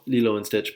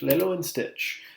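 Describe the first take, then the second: First: The name begins with a 'lee' sound. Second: The name begins with a 'lay' sound. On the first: The speaker calls it right. "this is pronounced as Lilo" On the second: The speaker calls it wrong. "I'm going to mispronounce it on purpose"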